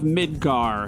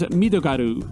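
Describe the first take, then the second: First: It is said as two syllables, English style. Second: It is said as four syllables, Japanese style. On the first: "that is the canon pronunciation" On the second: "In Japanese"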